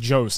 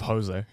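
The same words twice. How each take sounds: First: The name is given an anglicized pronunciation. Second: The name is given its Spanish pronunciation. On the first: The speaker calls it wrong. "It's like saying Jose" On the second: The speaker calls it right. "instead of Jose"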